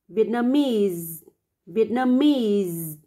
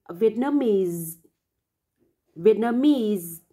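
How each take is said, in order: No difference in how they are said.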